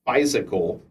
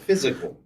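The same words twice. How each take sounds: First: The first syllable sounds like 'fie'. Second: The first syllable sounds like 'fizz'. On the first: The speaker calls it wrong. "not physical" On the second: The speaker calls it right. "It's physical"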